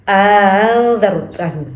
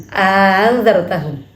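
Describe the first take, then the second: The two takes are said the same way.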